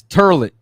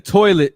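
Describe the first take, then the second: First: TURLET, toilet with er in place of oi; Brooklynese pronunciation. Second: Said in the usual way. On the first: Shown as a demonstration. Showing viewers how toilet changes in Brooklynese, dialect pronunciation. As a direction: say TURLET with an er vowel. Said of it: "instead of toilet". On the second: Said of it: "it's turlet".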